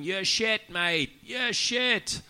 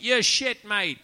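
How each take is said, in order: First: Heckler. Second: Loud, high heckler's jeer; a London heckler shouting at the comic on stage, loud and high. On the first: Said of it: "The crowd started going". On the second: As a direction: yell it up from the back of the crowd. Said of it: "the guy piped up and he went". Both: Retold or imitated.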